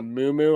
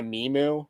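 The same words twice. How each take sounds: First: Muumuu as MOO-moo; corrected pronunciation. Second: Mimu as MEE-moo; mistaken pronunciation. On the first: Host correcting the garment's name, muumuu said MOO-moo. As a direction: say muumuu with oo in both syllables. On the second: Host misremembering the garment's name, Mimu said MEE-moo. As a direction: say Mimu with an ee in the first syllable. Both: Real, not acted. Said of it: "I think that's what it was called".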